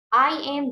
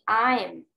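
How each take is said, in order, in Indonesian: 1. Kedua kata diucapkan lengkap dan terpisah. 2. Kedua kata menyatu menjadi satu suku kata. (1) "I am jadi I'm" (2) "The short form"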